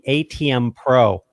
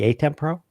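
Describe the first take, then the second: First: The name is said as the letters A-T-M. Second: The name is said as the word ATEM. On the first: The speaker calls it wrong. "the A T M Pro instead of" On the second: The speaker calls it right. "instead of the A T E M Pro"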